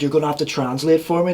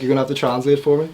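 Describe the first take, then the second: First: Put-on Scouse accent. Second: Fast, louder Scouse lad; Scouse accent. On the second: Retold or imitated. J-Dog at the airport asks his friend, in fast Scouse accent. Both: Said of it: "He's like".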